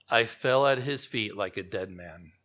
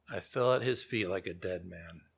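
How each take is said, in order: First: Said in the usual way. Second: Quiet, heavy repeat. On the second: Shown as a demonstration. Preacher repeating the verse so the congregation feels it, lower and softer. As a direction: lower and softer, letting it sink in. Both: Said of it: "look at the details".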